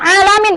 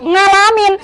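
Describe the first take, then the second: First: The word starts without an 'ng' sound. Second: The word starts with an 'ng' sound. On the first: The speaker calls it right. "bukan alamin" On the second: The speaker calls it wrong. "kalau ain itu ngak"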